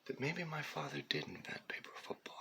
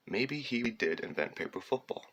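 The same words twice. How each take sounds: First: Breathy near-whisper, much softer; whispered aside. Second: Said in the usual way. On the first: Real, not acted. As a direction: whisper it like a secret guess. Musing aside about his father.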